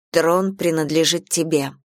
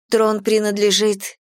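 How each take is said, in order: First: Cutting in. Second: Higher-pitched protest, left hanging; interrupted protest. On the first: Heroine tells Ezra the throne is hers, cutting in. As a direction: cut in to close the argument. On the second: Sister objects about the throne, protesting. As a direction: begin an objection that gets cut off. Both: A narrator's reading. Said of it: "перебила я".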